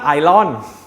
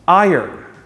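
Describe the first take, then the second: First: It sounds like eye-ron. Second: It sounds like eye-urn. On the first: The speaker calls it wrong. "It's not Iron" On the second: The speaker calls it right. "It's pronounced like I yearn"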